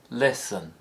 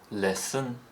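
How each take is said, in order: First: The pitch steps down on the word. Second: The pitch steps up on the word. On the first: "step down instead of fall" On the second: "appear to step up"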